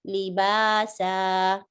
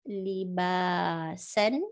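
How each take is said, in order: First: The word ends with a prolonged a vowel. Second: The word ends with a short a and n. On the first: The reader stops at this word. "When I stop here, it becomes libasa. So I'm prolonging sa a little bit" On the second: The reading continues past this word. "so we said libasan"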